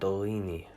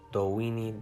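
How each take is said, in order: First: The middle consonant is made with unrounded lips. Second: The middle consonant is a rounded W. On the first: "unround your lips" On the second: "make a W sound"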